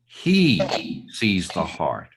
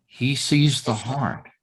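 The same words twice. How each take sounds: First: A reading that points at who sees; stress on He. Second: Sees the heart, with sees leaned on and falling; a reading that puts its weight on "sees"; stress on sees. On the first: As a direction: punch "He", then let the rest fall away low. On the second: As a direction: lean on "sees" and let it fall. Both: Shown as a demonstration. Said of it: "it depends on how, which word you emphasize".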